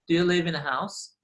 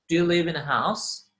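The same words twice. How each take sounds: The two takes are said the same way.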